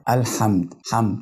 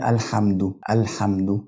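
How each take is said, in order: First: "الحمد" as al-hamd, meem without vowel; sukun on the meem. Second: "الحمد" as al-hamdu, ending in u; damma on the dal. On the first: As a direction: run m straight into d in "الحمد". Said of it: "الميم اللي هي بعد الحاء برضو ساكنة". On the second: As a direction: round the end of "الحمد" into du. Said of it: "كده أنا ضميت الحرف بتاع الدال". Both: Shown as a demonstration.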